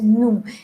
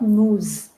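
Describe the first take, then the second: First: The final s sound is silent. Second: The final s sound is pronounced. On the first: The speaker calls it right. "It is nous" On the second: The speaker calls it wrong. "it is not nous"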